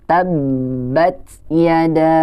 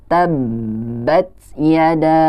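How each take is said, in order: No difference in how they are said.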